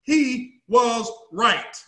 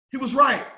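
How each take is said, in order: First: Drawn-out emphatic statement; he was right, said very slowly; slow, deliberate. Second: Said in the usual way. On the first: Shown as a demonstration. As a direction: let each word land slowly. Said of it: "repeated with slow emphasis". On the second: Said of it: "repeated at normal pace".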